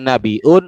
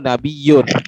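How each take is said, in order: First: A glottal stop comes before the ending. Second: A y-glide replaces the glottal stop. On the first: "bil hamzi"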